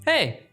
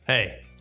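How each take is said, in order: First: It is said in a friendly greeting tone. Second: It is said sharply, like a warning.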